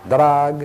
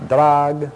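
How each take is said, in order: Both takes have the same delivery.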